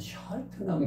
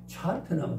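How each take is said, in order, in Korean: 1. 이 이름은 부드러운 'sh' 소리로 시작합니다. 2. 이 이름은 거센 'ch' 소리로 시작합니다. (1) "샤트남이라야 알아듣는다는 거지요" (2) "찰트남 그러면은 안 된다 그랬죠"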